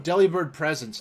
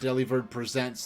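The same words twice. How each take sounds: First: The stress falls on the first syllable of presents. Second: The stress falls on the second syllable of presents. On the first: The name refers to gifts being offered. The speaker calls it right. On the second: The name suggests someone putting on a show. The speaker calls it wrong.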